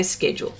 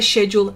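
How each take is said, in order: First: SK at the start of "schedule". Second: SH at the start of "schedule". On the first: Host on how other Australians say it, schedule with SK. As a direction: pronounce "schedule" SKED-yool. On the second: Host on how some Australians say it, schedule with SH. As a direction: pronounce "schedule" SHED-yool. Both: Shown as a demonstration. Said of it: "some people say schedule".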